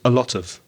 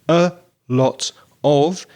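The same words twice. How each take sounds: First: The words run together in connected speech. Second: The words are said separately and fully.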